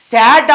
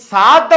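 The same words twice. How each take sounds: First: సాడ్ said like English 'sad'; wrong sound demo. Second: సాద్ with a long open 'aa'; correct sound demo. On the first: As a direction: punch SAD loudly as the English word. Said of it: "సాడ్ అవ్వట్లేదు". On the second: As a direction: say SAAD, stretching the vowel. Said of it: "అది సాద్ అవుతుంది". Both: Shown as a demonstration.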